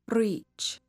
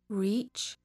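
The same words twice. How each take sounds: First: The R is trilled with the tongue. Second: The R is a smooth, untrilled sound. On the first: "a rolled R" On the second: "the Canadian R"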